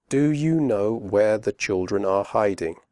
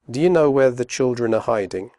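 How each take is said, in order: First: Slow with full are; careful slow question; slowly. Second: Fast, are reduced; quick natural question; quickly. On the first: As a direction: say each word clearly. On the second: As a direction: run the words together. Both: Shown as a demonstration. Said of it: "first slowly and then quickly".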